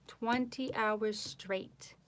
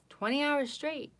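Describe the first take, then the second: First: Slow, drawn-out "Twenty hours straight"; slow emphasis. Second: Higher, louder "Twenty hours straight"; proud emphasis. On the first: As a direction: lay out "Twenty hours straight" slowly, word by word. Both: Real, not acted. Repeats the boast.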